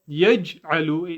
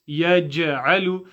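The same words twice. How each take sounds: First: The sukoon letter is said without an echo. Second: The sukoon letter is said with an echo. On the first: The speaker calls it wrong. "So it's not yaj'alu" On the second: The speaker calls it right. "it's yaj'alu"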